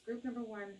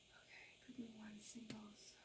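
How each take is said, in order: First: Said in the usual way. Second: Whispered repeat of the group name. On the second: Shown as a demonstration. Tarot reader repeating the group for viewers, whispered. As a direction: breathe it to the camera as a secret.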